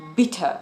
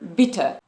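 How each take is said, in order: First: The middle consonant is a crisp, clear T. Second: The same.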